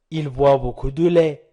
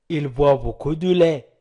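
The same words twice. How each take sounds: The two takes are said the same way.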